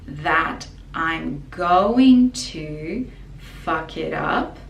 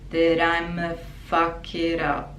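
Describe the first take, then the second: First: Going to is said fully as separate words. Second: Going to shrinks into a short schwa sound. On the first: "technically, grammatically" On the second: "we make it short in speaking or in songs"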